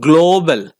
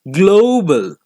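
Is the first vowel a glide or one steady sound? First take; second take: steady; glide. First: The first vowel stays one steady sound. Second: The first vowel glides from O toward oo. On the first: The speaker calls it wrong. "it is not global" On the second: The speaker calls it right. "It is global"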